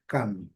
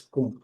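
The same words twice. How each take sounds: First: "Come" with short 'uh' vowel and closed M; "Come" unlike Portuguese "com", short open vowel; English "come". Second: "com" with a nasal O, like the Portuguese preposition; the wrong take, "com" with Portuguese nasal vowel. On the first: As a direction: say "Come" in English, lips shut at the end. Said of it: "mas a pronúncia é diferente". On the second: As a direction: say "com" as in Portuguese, lips left open. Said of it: "não podemos, por exemplo, pronunciar com". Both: Shown as a demonstration.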